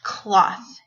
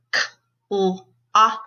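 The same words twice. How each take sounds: First: Said in the usual way. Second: CLOTH split into four sounds; k... l... aw... th, one at a time; sounded out phonemes. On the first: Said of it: "put those sounds into a word". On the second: Shown as a demonstration. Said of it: "say the sounds in the word".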